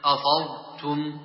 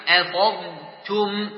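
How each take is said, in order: First: أفضتم with thickened letters; wrong heavy. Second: أثرتم slow with thin hamza and ta; light recitation; light letters. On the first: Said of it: "ولا تقل أفضتم بالتفخيم". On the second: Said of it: "مراعاة ترقيق الهمزة والفاء والتاء". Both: Shown as a demonstration.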